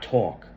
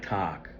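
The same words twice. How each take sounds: First: It is said with a non-Midwestern vowel. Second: It is said with a Midwestern vowel. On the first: "not talk" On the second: "some words is like mi- Midwestish. They will say talk"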